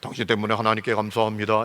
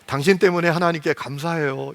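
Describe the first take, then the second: First: It sounds cold and unfriendly. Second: It sounds warm and bright.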